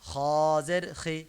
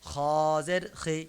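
Both takes have the same delivery.

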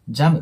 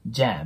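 First: The vowel is short and plain. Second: The vowel is drawn out and blended. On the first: The speaker calls it wrong. "jam って発音するよりも" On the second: The speaker calls it right. "ちょっと伸ばしながらA とA を混ぜてjam って発音してもらうと綺麗に聞こえます"

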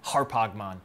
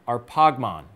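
First: It uses the Erasmian Greek pronunciation. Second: It uses a non-Erasmian Greek pronunciation.

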